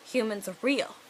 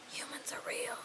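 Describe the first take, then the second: First: Said in the usual way. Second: Hushed, voiceless gasp of wonder; awed whisper. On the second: Acted. Fairy comes across a human in the forest, awed whisper. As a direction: whisper it in astonishment.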